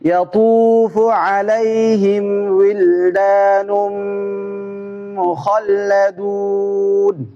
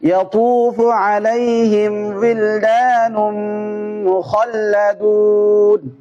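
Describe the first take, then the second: First: It is read slowly and steadily. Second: It is read at a medium speed. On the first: "দ্রুত না, শুদ্ধ করে আস্তে আস্তে করে" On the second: "মিডিয়াম গতি"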